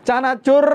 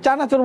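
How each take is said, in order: First: The word is stretched out like a street call. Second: The word is said briefly in a plain voice. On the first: It shows the seller's personal creative flair. "এভাবে যে টান দেয়" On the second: It is simply naming the snack. "চানাচুর বললেই তো আমরা বুঝি"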